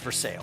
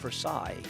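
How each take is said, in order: First: It is said the Kentucky way, like 'for sales'. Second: It is said the standard, non-Kentucky way. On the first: The speaker calls it right. "You're in Kentucky now. It's for sales" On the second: The speaker calls it wrong. "I said, "Versailles.""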